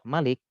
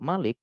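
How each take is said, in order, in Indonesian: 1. Vokal pertama dibaca pendek. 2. Vokal pertama dibaca panjang.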